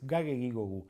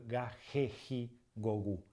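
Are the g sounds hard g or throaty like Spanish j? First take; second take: hard g; throaty. First: The g sounds are hard, as in go. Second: The g sounds like a throaty Spanish j. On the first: The speaker calls it right. "sino que es" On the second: The speaker calls it wrong. "no decimos, como en español"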